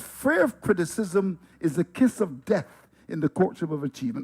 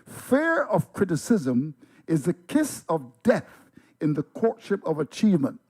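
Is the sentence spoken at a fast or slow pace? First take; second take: fast; slow. First: The sentence is spoken at normal conversational speed. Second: The sentence is spoken slowly and deliberately.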